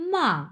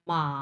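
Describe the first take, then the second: First: The pitch falls steadily from high to low. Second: The pitch dips in the middle, then rises. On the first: "উপর থেকে নিচের দিকে নেমে আসতেছে আমার ভয়েসটা" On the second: "এই মাথাটা কিন্তু আমি ভাঙতেছি"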